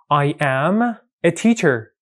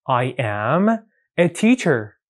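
No difference in how they are said.

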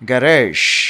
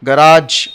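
First: The word ends with a soft 'zh' sound. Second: The word ends with a hard 'j' sound. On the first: This is how the word should be said. The speaker calls it right. "గరేష్ అని అనాలి దీన్ని" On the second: This is the common Indian way of saying it. The speaker calls it wrong. "General Indian Indian pronunciation ఇట్లా ఉంటుంది"

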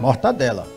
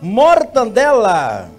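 First: No n sound comes before the d. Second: An n sound comes before the d. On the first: The speaker calls it right. "O certo é mortadela. Tira o N aí" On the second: The speaker calls it wrong. "É mortandela ou mortadela que fala?"

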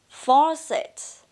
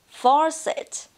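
The two takes are said the same way.

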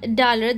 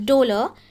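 First: The first vowel sounds like 'ah'. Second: The first vowel sounds like 'oh'. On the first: The speaker calls it wrong. "this is actually not dalar" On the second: The speaker calls it right. "I think we pronounce it as dolor"

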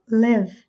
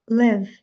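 No difference in how they are said.

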